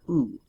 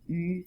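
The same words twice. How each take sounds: First: The vowel is a plain back u. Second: The vowel is a rounded front ü. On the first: The speaker calls it wrong. "not U" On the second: The speaker calls it right. "Notice it has the U sound"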